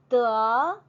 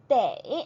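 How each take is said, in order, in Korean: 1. 모음은 평범한 'e' 소리예요. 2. 모음이 'ei' 소리로 이어져요. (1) "뭔가를 얻다라는 의미로 사용될 때는 더로 읽어주어야 하고요" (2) "당위성을 표현을 할 때는 돼"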